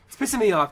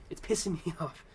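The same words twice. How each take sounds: First: Louder, higher "pissing me off"; real annoyance pushed out loud; louder again. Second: Laughs halfway through "pissing me off"; half-laughing at his own anger; real laugh breaking into the line. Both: Real, not acted.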